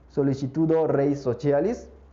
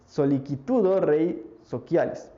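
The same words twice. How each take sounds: First: The Latin is said in church-style pronunciation. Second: The Latin is said in classical-style pronunciation. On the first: "que será la pronunciación eclesial del latín" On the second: "Si lo quieren decir en un término más clásico"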